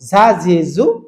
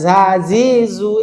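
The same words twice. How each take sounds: First: The syllables are said quickly and smoothly together. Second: The syllables are said slowly, one by one. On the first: The speaker calls it right. "আমরা ফার্স্ট বলবো" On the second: The speaker calls it wrong. "এরকম না বলে"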